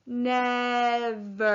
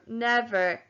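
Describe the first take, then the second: First: NEVER stretched into two long syllables; said slowly. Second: Said in the usual way. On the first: Shown as a demonstration. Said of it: "Say the word slowly".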